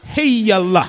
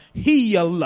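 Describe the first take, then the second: First: Even louder Southern preacher cry of Heal, stretched to hee-al-ah; mock Southern tent-meeting shout of Heal; Southern faith-healer accent. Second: Loud Southern preacher drawing out Heal into hee-al; hammed-up Southern revival shout of Heal; Southern faith-healer accent. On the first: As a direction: belt Heal like a Mississippi revival healer. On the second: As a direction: imitate a Mississippi healing preacher, loud and stretched. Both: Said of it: "That's how they say it in the South".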